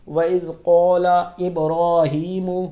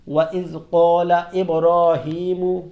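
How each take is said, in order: The two takes are said the same way.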